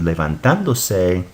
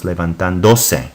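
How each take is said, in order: First: "levantándose" with the stress on TAN, le-van-TAN-do-se; correct Spanish stress. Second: "levantándose" with the stress moved to DO, le-van-tan-DO-se; wrong stress. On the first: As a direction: say "levantándose" as the book shows it, leaning on TAN. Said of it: "So it's pronounced". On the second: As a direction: demo the mistaken "levantándose", leaning on DO instead of TAN. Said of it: "it would be pronounced levantándose". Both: Shown as a demonstration.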